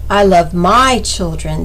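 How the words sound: The stress falls on the word my. Other people's children get less affection. "If the emphasis is placed on the third word"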